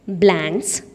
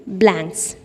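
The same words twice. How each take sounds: The two takes are said the same way.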